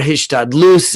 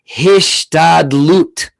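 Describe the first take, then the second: First: It is said with a final s sound. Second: It is said with a final t sound.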